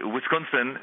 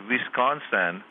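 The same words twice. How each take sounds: First: Wisconsin with a put-on Arab accent; comic attempt at an Arab accent. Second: Wisconsin with a put-on Iranian accent, V for W; comic attempt at an Iranian accent. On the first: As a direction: say Wisconsin as an Arab speaker might, with a W start. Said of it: "an Arab might say". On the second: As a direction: say Wisconsin as an Iranian might, opening on a V. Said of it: "an Iranian might say". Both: Shown as a demonstration.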